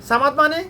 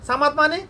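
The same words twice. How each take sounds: No difference in how they are said.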